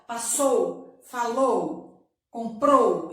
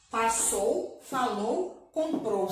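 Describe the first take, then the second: First: Passou, falou, comprou with the final syllable (-ou) punched, each word louder; stress on the last syllable. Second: Said in the usual way. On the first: Shown as a demonstration. Teacher drilling pupils on the strong final syllable of Passou, falou, comprou. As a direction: lean hard on the closing -ou of Passou, falou, comprou. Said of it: "a sílaba forte da palavra". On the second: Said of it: "vamos ler aqui comigo".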